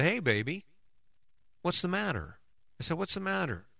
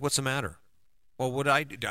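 First: Tender concern. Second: A touch of defensive irritation, pushing back. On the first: Husband comforting his crying wife, tender and higher. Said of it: "I ran into the fire with her". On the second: Husband's usual defensive reply to his crying wife, mildly defensive. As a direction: answer as if accused, lightly on guard. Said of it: "I would get defensive". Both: Retold or imitated.

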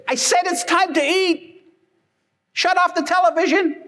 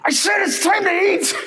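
First: Much higher, impatient mom voice; mock mom insisting over the TV; annoyed mom. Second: High, shouted mock mom yell; hammed-up furious mom calling dinner; angry mom. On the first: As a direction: repeat the call, losing patience. Mom repeats call, annoyed. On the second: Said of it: "now she's getting angry".

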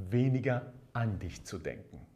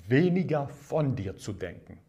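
First: "weniger an dich", with the weight on "an"; stress on "an". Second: "weniger von dir", with the weight on "von"; stress on "von". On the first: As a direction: lean on "an" as the correction. Answers von with an. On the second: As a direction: lean on "von" to set up a contrast. Contrasts von with an. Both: Shown as a demonstration.

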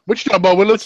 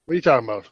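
First: Lightly hammed-up sitcom puzzlement; mock catchphrase. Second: Said in the usual way. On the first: Co-host riffing on a baffling remark, mock sitcom catchphrase. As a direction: toss it out as a TV catchphrase.

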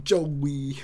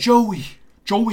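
First: Attempted British accent. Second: Joey in a British accent, first one high and loud. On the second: Host demonstrating the British Joey for cohost, high British accent. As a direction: say Joey the British way, bright and lifted. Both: Shown as a demonstration. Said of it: "How do you say it in a British accent?".

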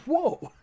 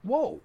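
First: A much higher, louder whoa broken by a laugh; mock-startled, laughing. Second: A retold short gasp of surprise, a little higher; mild imitated shock at the remark; imitating mom taken aback; startled whoa. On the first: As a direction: ham up mom's shock while laughing. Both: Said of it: "She was just like".

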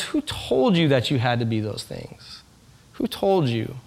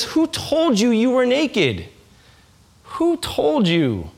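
First: Quieter, slow and tender; soft tender question. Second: Slow, tender question from God; gentle question. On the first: Preacher voicing a loving parent to a child, soft and slow. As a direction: ask it softly, full of love. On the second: Preacher voicing God asking his people, slow and tender. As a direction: ask it slowly and gently, like a loving parent. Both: Acted.

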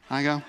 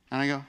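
Both takes have the same delivery.

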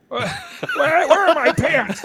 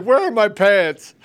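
First: High, laughing, slowed where are my pants; laughing mock confusion. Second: High, loud, slow dazed where are my pants; imitating a stoner. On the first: Mocking a dazed stoner, laughing. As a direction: giggle through a dazed stoner line. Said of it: "That was the best part". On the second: Host repeating the best line, loud and dazed. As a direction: echo his stoner line loudly, dragging it out. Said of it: "It's like".

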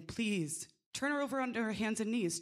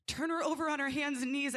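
First: Quick, urgent plea; pleading. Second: Higher, pressing demand; insistent plea. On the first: Midwife begs the nurses to turn the mother, quick and pleading. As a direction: beg the staff to turn her over. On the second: Midwife repeats her plea to the nurses, higher and more insistent. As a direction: push the plea harder. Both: Retold or imitated. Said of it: "And I am pleading".

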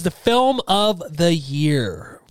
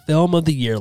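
First: Dramatic announcer. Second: Said in the usual way. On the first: Acted. Announcing the top award.

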